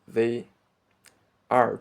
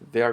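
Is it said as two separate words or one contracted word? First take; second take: two words; one word. First: Both words are said separately and in full. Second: The two words merge into one contracted word. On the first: "Instead of they are driving to Mexico" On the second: "To pronounce it as a one word"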